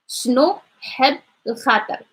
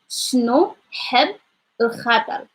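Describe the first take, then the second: No difference in how they are said.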